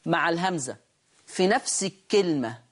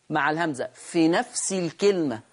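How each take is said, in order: Both takes have the same delivery.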